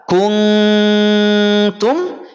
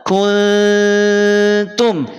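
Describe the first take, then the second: The two takes are said the same way.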